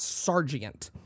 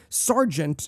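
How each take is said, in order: First: The word is spread over three syllables. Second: The word is squeezed into two syllables. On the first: This is the older way, which completes the verse line. "But for them, it's sergeant" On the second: This is the modern way of saying it. "Sergeant is a word that we squeezed it together"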